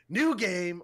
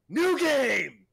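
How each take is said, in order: First: It is said calmly, without extra energy. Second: It is said with double the excitement.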